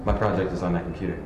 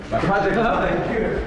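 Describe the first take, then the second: First: Said in the usual way. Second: Higher, louder, alarmed repeat; the horror sinks in; panicked realization. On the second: Acted. Student realises project is gone.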